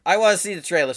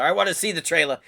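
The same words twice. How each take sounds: First: "I wanna see the trailer" pushed higher and louder; can't wait a second longer; more eager. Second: "I wanna see the trailer", keen and a little raised; itching to hit play; eager. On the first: To his viewers, bursting to start the trailer, louder and excited. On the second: To his viewers, impatient to watch the trailer, eager. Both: Real, not acted.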